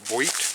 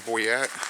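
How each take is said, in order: First: The name is said with one syllable. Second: The name is said with two syllables. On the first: The speaker calls it right. "I think the proper pronunciation is Boit" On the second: The speaker calls it wrong. "I've now realized I've been saying that wrong"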